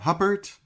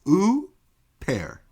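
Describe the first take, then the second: First: The name begins with an h sound. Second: The name begins with an oo vowel. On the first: The speaker calls it wrong. "It's not Huppert" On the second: The speaker calls it right. "It's ooh, pear"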